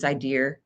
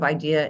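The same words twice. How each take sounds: First: It is said in a Jersey City accent, added R. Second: It is said in a standard accent, no added R.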